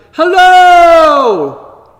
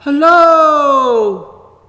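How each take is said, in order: First: Big call from a mountaintop, much higher and louder; shouting hello. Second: A faraway echo, high and still loud; distant echo. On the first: Child on a mountaintop shouting hello to hear the echo. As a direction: shout it out to the valley below. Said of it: "and I shouted". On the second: Mountain echoing the child's hello from far away. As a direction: call it back as if from across the valley. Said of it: "only far away". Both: Retold or imitated.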